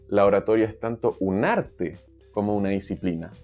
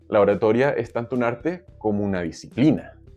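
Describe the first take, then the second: First: The stress is on "arte". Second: The stress is on "disciplina".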